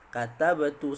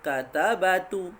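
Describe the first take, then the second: First: The verb is said without a vowel before 'tu'. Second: The verb is said with a vowel before 'tu'. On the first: The speaker calls it right. "kita sebut katabtu" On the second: The speaker calls it wrong. "kalau kita tak nak ubah apa-apa, kita akan sebut katabatu"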